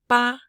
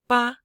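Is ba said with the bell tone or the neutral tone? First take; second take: bell; bell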